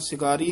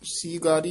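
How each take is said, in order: First: The first vowel is short. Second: The first vowel is held long. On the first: The speaker calls it wrong. "ਸਿਗਾਰੀ ਨਹੀਂ ਕਹਿਣਾ" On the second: The speaker calls it right. "ਦੀਰਘ ਉਚਾਰਨ ਕਰਨੀ ਹੈ"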